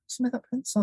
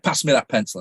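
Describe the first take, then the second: First: It is said with almost no energy. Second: It is said with the most energy.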